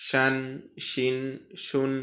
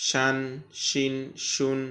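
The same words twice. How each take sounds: No difference in how they are said.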